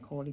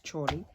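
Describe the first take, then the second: First: The name begins with a k sound. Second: The name begins with a ch sound. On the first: The speaker calls it wrong. "I always want to call her Corley" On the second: The speaker calls it right. "but it's Chorley"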